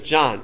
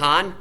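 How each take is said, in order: First: The name begins with a j sound. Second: The name begins with an h sound. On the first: The speaker gives the name correctly. The speaker calls it right. "My name is John" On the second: The speaker gets the name wrong. The speaker calls it wrong. "kept mispronouncing your name"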